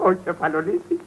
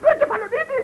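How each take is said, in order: First: Low-pitched, softer utterance; low first mention. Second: High-pitched exclamation; raised repeat. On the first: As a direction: keep Κεφαλονίτη down low and subdued. First call, low, then repeated high. (χαμηλόφωνα, σε χαμηλό τόνο) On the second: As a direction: send Κεφαλονίτη up high in pitch. (αναφώνηση σε ψηλό τόνο) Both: Acted.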